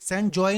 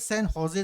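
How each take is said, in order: First: The second word begins with a J sound. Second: The second word begins with an H sound. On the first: The speaker calls it wrong. "San जॉय नहीं पढ़ेंगे" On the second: The speaker calls it right. "San होजे इसको प्रोनाउंस करते हैं"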